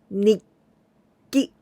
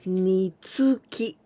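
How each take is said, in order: First: A short held stop comes before 'ki'. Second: A full 'tsu' syllable is said before 'ki'. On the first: The speaker calls it right. "When tsu is small, then I pronounce nikki" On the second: The speaker calls it wrong. "Nitsuki, not like this"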